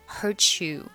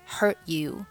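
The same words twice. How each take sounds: First: The t of hurt links into you. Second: The final t of hurt is silent. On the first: "你也可以选择hurt you" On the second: "她是选择了hurt 末尾不发音"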